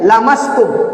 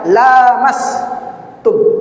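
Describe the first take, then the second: First: The vowel after the L is kept short. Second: The vowel after the L is held long. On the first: It refers to touching, so mere touching breaks ablution. "dengan pendek" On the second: It refers to marital intercourse, so mere touching does not break ablution. "dengan panjang la-nya"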